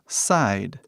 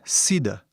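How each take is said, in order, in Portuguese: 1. A palavra termina na consoante d. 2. A palavra termina com um som de vogal extra. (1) "hoje em dia falamos side" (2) "antigamente era Sida"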